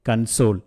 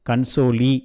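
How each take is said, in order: First: The word ends on the l sound. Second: The word ends with an extra ee vowel. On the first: The speaker calls it right. "அந்த ஈ வந்து silent ஆகிடும்" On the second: The speaker calls it wrong. "கன்சோலி அப்படின்னு வராது"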